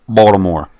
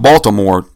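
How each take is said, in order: First: The t sound is dropped from the name. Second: The t sound is pronounced in the name. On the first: This is how locals say it. The speaker calls it right. "That's how they say it down there. They roll it" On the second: This is how outsiders say it. The speaker calls it wrong. "Not Baltimore. They have no T in the word"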